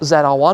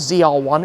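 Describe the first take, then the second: First: The letter Z is pronounced zed. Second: The letter Z is pronounced zee.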